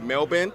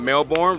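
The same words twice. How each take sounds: First: It is pronounced the way Australians say it. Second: It is pronounced the way Americans usually say it. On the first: The speaker calls it right. "knows how to say Melbourne" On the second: The speaker calls it wrong. "not Melbourne"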